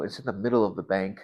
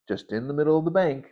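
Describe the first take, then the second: First: Said in the usual way. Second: "just in the middle of the bank" repeated higher with amazement, falling on "bank"; amazed repeat. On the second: Shown as a demonstration. Retelling the bank hug, amazed and raised. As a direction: lift the repeat, marvel at "bank".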